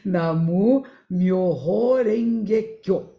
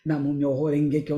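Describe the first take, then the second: First: It is said slowly, syllable by syllable. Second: It is said quickly, in one run. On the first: It is said the way a beginner says it. "Eu falei bem devagarzinho" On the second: It is said the way an experienced person says it. "Quem já está mais acostumado fala rapidinho"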